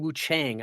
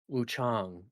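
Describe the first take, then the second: First: The vowel in Chang is hard and flat. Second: The vowel in Chang is an open 'ah'. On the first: The speaker calls it wrong. "they kept saying Wu Chang ... that sounds incorrect ... a little too hard" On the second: The speaker calls it right. "it's like ah as in father. So Wu Chang"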